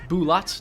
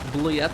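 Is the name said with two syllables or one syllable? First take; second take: two syllables; one syllable. First: The name is said with two syllables. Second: The name is said with one syllable. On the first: The speaker calls it right. "It's Bulat" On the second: The speaker calls it wrong. "not Bliet"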